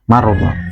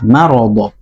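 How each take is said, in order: First: The r is said with no vowel after it. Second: The r is followed by a short a vowel. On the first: The speaker calls it wrong. "ada kesalahan sebagian imam yaitu mengucapkannya marbo" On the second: The speaker calls it right. "Padahal itu fathah marodo"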